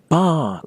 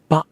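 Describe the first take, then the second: First: The voice is raised to a high pitch. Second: The vowel is cut off short and abruptly. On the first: "don't raise your voice either. Don't say ba like the place you're going to get a pint" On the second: "don't cut it off like someone has just interrupted you. Don't say ba"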